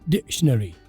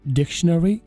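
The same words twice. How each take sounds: First: The c sound is skipped over. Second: The c sound is clearly pronounced. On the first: "British वाले यहाँ पर जो सी की आवाज़ है उससे जंप कर देते हैं" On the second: "अमेरिकन वाले बोलते हैं"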